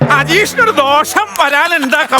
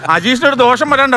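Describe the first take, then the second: First: It is said in a put-on astrologer voice. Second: It is said in his ordinary speaking voice.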